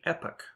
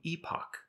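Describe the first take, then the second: First: It is said the American way. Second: It is said the British way. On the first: "people who use American English will say epoch, with the stress on the first syllable" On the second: "If you happen to be in the UK, the accepted way to pronounce this word changes to epoch"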